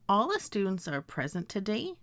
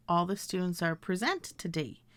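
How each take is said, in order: First: "present" stressed on first syllable; present as PREZ-ent. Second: "present" stressed on second syllable; present as pre-ZENT. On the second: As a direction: say "present" as pree-ZENT, sentence falling. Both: Shown as a demonstration. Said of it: "I can pronounce these words as".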